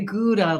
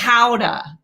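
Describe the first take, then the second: First: The word has the English pronunciation. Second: The word has the Dutch pronunciation. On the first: "like we say in English" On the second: "this is something the Dutch say"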